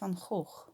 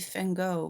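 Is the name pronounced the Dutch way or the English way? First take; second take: Dutch; English. First: The name has a Dutch pronunciation. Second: The name has an English pronunciation. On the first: The speaker calls it right. "we pr- pronounce his name Vincent van Gogh" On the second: The speaker calls it wrong. "most English people say it like that"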